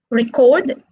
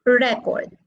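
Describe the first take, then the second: First: "record" as re-CORD, strong ending; stress on second syllable. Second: "record" as REC-ord, strong opening; stress on first syllable. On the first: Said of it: "Record is stressed on the". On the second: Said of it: "Record is stressed on the first syllable". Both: Shown as a demonstration.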